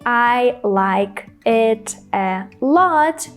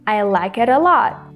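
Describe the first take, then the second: First: Each word is said separately, without linking. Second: The consonants link smoothly into the following vowels. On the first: The speaker calls it wrong. "Instead of saying" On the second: The speaker calls it right. "we should say ... I connected the words like with it and it with a"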